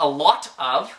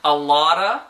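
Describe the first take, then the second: First: The T is a crisp, fully released T. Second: The T is a quick tap, like 'lotta'. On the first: "it's not a lot of" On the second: "that way that we pronounce the T in a lotta is actually exactly the same as the Spanish R"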